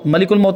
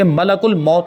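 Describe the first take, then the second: First: The first word is said as 'malikul'. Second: The first word is said as 'malakul'. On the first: The speaker calls it wrong. "मलिकुल मौत नहीं" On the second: The speaker calls it right. "बल्कि मलकुल मौत लफ्ज़ है"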